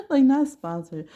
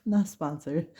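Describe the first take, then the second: First: Higher, louder, laughing through it; giggling disclaimer; laughing repeat. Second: Said in the usual way. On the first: Shown as a demonstration. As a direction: laugh it out, slower and up high.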